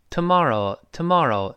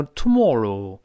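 First: American "tomorrow" with an open ah, tuh-MAR-oh; American pronunciation. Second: British "tomorrow" with a rounded o in mor; British pronunciation. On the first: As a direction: say "tomorrow" the easy American way, tuh-MAH-roh. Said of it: "美国人呢". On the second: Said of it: "英国人会读tomorrow". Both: Shown as a demonstration.

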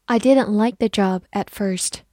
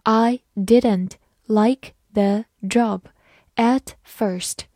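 First: Said in the usual way. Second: Slow, careful read of I didn't like the job at first. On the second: Shown as a demonstration. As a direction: read slowly word by word. (慢慢地朗读) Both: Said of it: "好，慢慢来读。".

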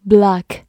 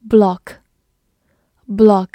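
First: "block" with an open American "ah" vowel; American pronunciation. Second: Said in the usual way. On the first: Shown as a demonstration. (美式发音的block) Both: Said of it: "美式发音读作".

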